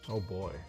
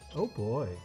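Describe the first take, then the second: First: It is said in a plain, ordinary voice. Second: It is said in a girly, flirty voice.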